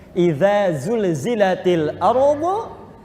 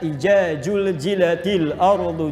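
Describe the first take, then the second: First: The consonants are said with 'dh' and 'z' sounds. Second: The consonants are said with 'j' sounds instead. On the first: The speaker calls it right. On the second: The speaker calls it wrong.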